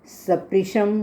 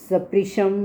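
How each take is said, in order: The two takes are said the same way.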